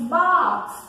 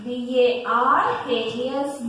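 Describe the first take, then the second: First: Said in the usual way. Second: Each letter of B A R K S said slowly and separately; slow classroom spelling of barks. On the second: Shown as a demonstration. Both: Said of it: "Dog barks".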